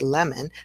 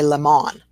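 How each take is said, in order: First: The second vowel is a weak schwa. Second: The second vowel is a full O. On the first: The speaker calls it right. "our schwa in lemon is the O" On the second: The speaker calls it wrong. "as soon as we hear that, we go ah"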